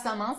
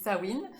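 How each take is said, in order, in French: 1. Il se prononce comme il s'écrit. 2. Il ne se prononce pas comme il s'écrit. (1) "on ne dit pas Samin, ça s'écrit Samin" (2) "mais on dit Samhain"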